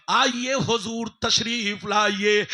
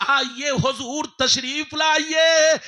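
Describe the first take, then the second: First: Said in the usual way. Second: Louder and slow, stretching लाइए; slow full-voiced call, लाइए held long; shouted welcome. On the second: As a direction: throw the invitation out to the crowd. Welcome repeated, second louder.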